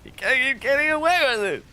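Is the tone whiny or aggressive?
aggressive. It is said in an aggressive tone.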